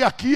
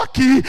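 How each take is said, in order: First: AQUI asked loudly with a rising end; questioning AQUI. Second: AQUI stated loudly as a settled answer; loud, decisive "Aqui."; firm AQUI. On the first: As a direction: lift "Aqui" into an incredulous question. His question, then her answer. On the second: Her firm answer to his question. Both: Retold or imitated.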